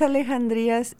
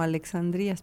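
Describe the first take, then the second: First: The x is pronounced as a throaty j sound. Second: The x is pronounced as a ks sound. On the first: The speaker calls it right. "en realidad es Alejandrías" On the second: The speaker calls it wrong. "la mayoría lo pronuncia como Alexandrías"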